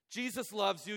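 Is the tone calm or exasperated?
exasperated. The tone is impatient and exasperated. Patience is running out after repeated wrongdoing.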